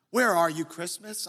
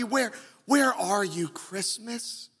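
First: Sung softly, fading out at the end; soft singing. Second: Gently sung, fading on the last word; hum-sing it tenderly; soft singing. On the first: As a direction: croon it gently like a ballad. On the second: Preacher singing the line again, softly fading. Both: Retold or imitated. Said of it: "Faith Hill singing ever so softly".

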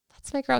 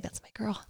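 First: Put-on "That's my girl," lifted higher and brighter; cheerful repeat. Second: Put-on a mild, hushed "That's my girl."; "That's my girl." said softly, almost to herself; soft aside. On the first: Host cheering Lisa's Diet Coke, pitched higher. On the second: Host quietly cheering Lisa's order, hushed. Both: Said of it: "That's when I was like".

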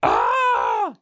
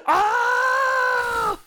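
First: Deep, loud imitated death scream; a falling death yell, low and loud; death cry. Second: Very high, loud shrieking death scream; death cry. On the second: Retold or imitated. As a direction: scream like you're falling off a cliff. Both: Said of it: "it also has a great death scream if you fall".

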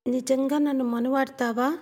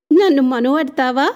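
First: Put-on a higher, softer and sincere young woman's question; earnest, softer. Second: Teasing, bright and loud question; giggling. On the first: Rangi earnestly asking if he will marry her. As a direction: ask it gently, really wanting to know. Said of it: "నెమ్మదిగా". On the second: Acted. Rangi giggling as she teases him about marriage. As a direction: giggle it out like a playful girl. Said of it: "కిలకిలా నవ్వుతూ".

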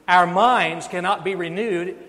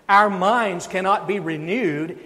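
The two takes are said the same way.

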